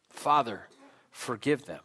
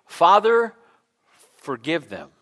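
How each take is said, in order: First: Subdued plea, fading away; hushed quoted plea. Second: Quoted plea. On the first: Preacher repeating Jesus's words to congregation, hushed. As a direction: repeat it low and soft. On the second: Preacher voicing Jesus on the cross, raised plea. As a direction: cry out the first word, then drop. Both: Retold or imitated.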